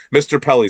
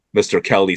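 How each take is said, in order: First: Pelly, opening with a P sound; corrected surname. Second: Kelly, wrongly opening with a K sound; mispronounced surname. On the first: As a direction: say Pelly with a clear P, pitched higher. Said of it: "Mispronounce your name". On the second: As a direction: say Kelly with K where P belongs. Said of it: "I think it's Pelly". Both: Real, not acted.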